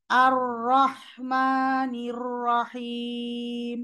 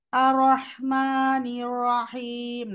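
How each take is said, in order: First: আর রহমানির রহিম very slow with heavy doubled র; correct recitation. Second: আর রহমানির রহিম slow, with র lacking its doubling; wrong way. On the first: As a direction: lean on the doubled র in আর. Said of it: "র এর সাদ্দা খেয়াল করব". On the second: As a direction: recite it without stressing the doubled র. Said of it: "না, না". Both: Shown as a demonstration.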